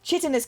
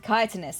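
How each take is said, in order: First: The word begins with a 'ch' sound. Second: The word begins with a 'k' sound. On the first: The speaker calls it wrong. "I got it completely wrong" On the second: The speaker calls it right. "Ki Kai? ... Yeah, it is chitinous"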